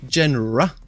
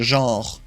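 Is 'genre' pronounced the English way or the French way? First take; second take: English; French. First: The word is given an English pronunciation. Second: The word is given a French pronunciation. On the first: "is it said genre in uh, English?" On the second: "In French, it's saying genre"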